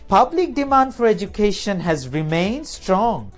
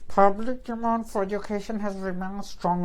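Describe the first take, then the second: First: Words are clear, with pitch going up and down. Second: Words are chewed up and run together unclearly.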